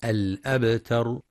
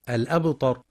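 First: الأبتر with a thin, light ت. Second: الأبطر with the ت thickened like ط, the wrong way; heavy ta. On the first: Teacher giving the correct reading, thin ta. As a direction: keep the ت in الأبتر light and crisp. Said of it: "والصواب ترقيقها". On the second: Teacher showing the mistake, heavy ta. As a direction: darken the ت in الأبتر into a heavy ط. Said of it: "يفخم التاء فيقترب لفظا من الطاء". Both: Shown as a demonstration.

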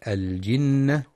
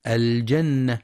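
First: "الجنة" as al-jinnah; jeem with kasra. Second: "الجنة" as al-jannah; jeem with fatha. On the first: Teacher giving the correct word, "الجنة" as al-jinnah. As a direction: say "الجنة" slowly with an i after jeem. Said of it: "والصواب كسرها". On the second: Teacher showing the mistake, "الجنة" as al-jannah. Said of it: "بفتح الجيم". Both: Shown as a demonstration.

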